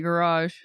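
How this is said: It is said in an American accent. "In American English, we say garage"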